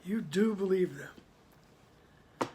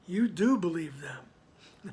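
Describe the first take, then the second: First: Very slow, "do" weighted and falling; stress on do. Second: Slow, with "do" lifted and leaned on; stress on do. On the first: Teacher repeating the line to demonstrate the stress on "do". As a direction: drag it out and land hard on "do". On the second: Teacher showing the class where the stress falls, leaning on "do". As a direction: press the word "do" and let it rise, slowly. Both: Shown as a demonstration. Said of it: "With the emphasis on do".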